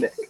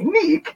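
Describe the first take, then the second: First: The vowel is a short i sound. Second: The vowel is a long ee sound. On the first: The speaker calls it right. "Is Nick" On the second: The speaker calls it wrong. "you should not be thinking of my name as Neek"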